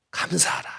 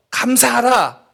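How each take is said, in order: First: Near-whispered, much softer delivery; hushed exhortation. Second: Said in the usual way. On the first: Retold or imitated. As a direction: drop to a hush, almost no voice. Same exhortation amid hardship.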